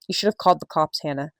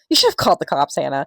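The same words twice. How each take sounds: First: It is read in a plain, neutral voice. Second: It is read in a cheerful, happy voice. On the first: "read it in a normal voice" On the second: "do it in a happy voice"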